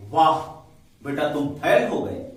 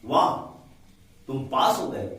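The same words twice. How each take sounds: First: Loud mocking वाह, then a slow rising fail; mock praise for a failure; sarcastic wow. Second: वाह bright and pleased, with a glad tone on pass; real joy at good news; delighted wow. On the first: Teacher demoing a sarcastic exclamation for students. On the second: Teacher demoing a glad exclamation for students. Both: Shown as a demonstration. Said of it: "वाह मतलब एक आश्चर्य चकित होता है".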